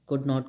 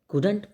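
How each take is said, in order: First: It is said as two separate full words. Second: It is said as one shortened contracted word.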